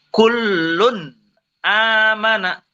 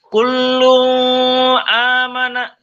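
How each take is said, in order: First: The first word ends with a clear n sound. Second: The first word ends without an n sound. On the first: The speaker calls it right. "Yang benar kullun amana" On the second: The speaker calls it wrong. "tidak dibaca kullu amana, salah"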